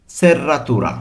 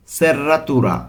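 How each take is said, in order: Both takes have the same delivery.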